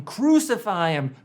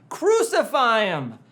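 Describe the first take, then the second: First: A louder crowd yell of Crucify him; crowd shout. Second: The mob's yell swelling, drawn out; louder crowd shout. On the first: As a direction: call out Crucify him like the mob. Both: Retold or imitated. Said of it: "the crowd is shouting".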